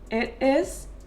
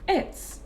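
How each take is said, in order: First: The two words are said separately in full. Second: The two words merge into one short syllable.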